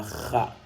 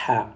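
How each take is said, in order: First: "kha" with a rasped back-of-throat kh; rough throat friction before the a of "kha"; dotted kha sound. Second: "ha" with a smooth, airy throat h; "ha" without any rasp on the h; undotted ha sound. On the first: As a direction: scrape the kh in "kha". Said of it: "C'est différent avec la même lettre sans le point". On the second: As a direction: push clean air through the throat for "ha". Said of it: "la même lettre sans le point". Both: Shown as a demonstration.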